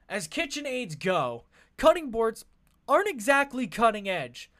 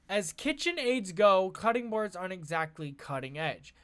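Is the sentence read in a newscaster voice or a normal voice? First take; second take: newscaster; normal. First: It is read in a put-on newscaster voice. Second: It is read in an ordinary speaking voice.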